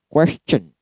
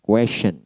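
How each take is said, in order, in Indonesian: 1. Bunyi di tengah adalah bunyi 'ch'. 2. Bunyi di tengah adalah bunyi 'sh'. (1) "Yang benar adalah question menggunakan ch" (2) "terkadang dipronouncekan question menggunakan sha"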